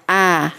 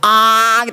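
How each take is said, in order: First: The vowel is opened normally, without overdoing it. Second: The vowel is opened too wide and overdone. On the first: The speaker calls it right. "A biasa aja" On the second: The speaker calls it wrong. "nggak usah terlalu A gitu"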